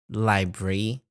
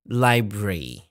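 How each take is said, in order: First: It is said the British English way. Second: It is said the British English way.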